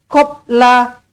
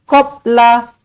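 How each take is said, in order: No difference in how they are said.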